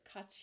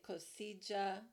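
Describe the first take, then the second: First: All vowels in the name sound short. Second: Some vowels in the name sound long. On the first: The speaker calls it right. "with all short vowels. So it sounds like Katya" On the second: The speaker calls it wrong. "I've been saying Kosija, I knew it was wrong"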